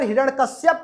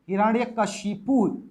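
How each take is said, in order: First: The name ends with the sounds 'shyap'. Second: The name ends with the sounds 'shipu'. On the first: The speaker calls it wrong. "तब तो गलत होगा" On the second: The speaker calls it right. "तो ये सही होगा"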